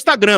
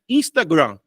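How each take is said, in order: First: The word is pronounced in a plain, ordinary way. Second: The word is pronounced in a fancy, polished way. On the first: "Mas é o Instagram mesmo" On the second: "Falei bonito agora"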